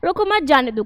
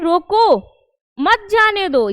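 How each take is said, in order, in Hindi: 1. इसे बिना किसी ठहराव के बोला गया है। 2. "रोको" के ठीक बाद ठहराव है। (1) "ठहराव नहीं है" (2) "ठहराव है, कब, रोको के जस्ट बाद"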